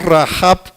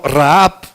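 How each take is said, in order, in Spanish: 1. La h es un sonido de j fuerte y gutural. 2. La h es un sonido suave y aspirado. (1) "La H la pronuncia como J para Rahab, que es la prostituta" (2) "que sería la pronunciación un poquito más correcta"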